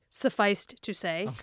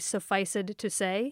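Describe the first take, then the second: First: The ending of the first word adds no syllable. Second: The ending of the first word is a full extra syllable. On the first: "So sufficed to say" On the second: "people tend to do it all Shakespearean, put the ud, like pronounce the ed"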